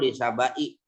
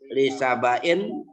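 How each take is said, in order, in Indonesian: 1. Kata itu diakhiri tanpa bunyi n. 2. Kata itu diakhiri dengan bunyi n yang ditambahkan. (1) "dan tidaknya" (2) "dengan tanwin"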